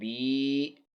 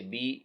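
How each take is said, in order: First: The vowel is drawn out long. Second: The vowel is cut short. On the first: The speaker calls it right. "यहाँ या को बा को लंबा करके पढ़ेंगे" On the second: The speaker calls it wrong. "तो ये ये नुकसान हर्फ है"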